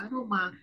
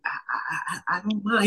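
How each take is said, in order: First: Said in the usual way. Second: Halting, repeated I before the words; stuttering. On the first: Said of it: "He said". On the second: Retold or imitated. Cop caught off guard, answering with a mild stutter. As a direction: stumble over the first word, a bit unsure. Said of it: "He stuttered".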